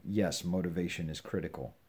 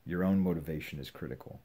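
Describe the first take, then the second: First: Said in the usual way. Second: "own" lifted and held a little longer; stress on own. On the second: Shown as a demonstration. Preacher to listeners, leaning on "own". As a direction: lean on the word "own".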